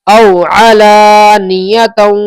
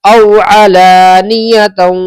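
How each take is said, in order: The two takes are said the same way.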